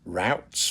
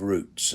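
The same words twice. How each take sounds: First: It is said in an American accent. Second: It is said in a British accent. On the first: "for my American friends" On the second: "as we would say in the U K"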